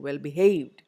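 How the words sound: The stress is on the second word. The speaker calls it right. "you say well behaved"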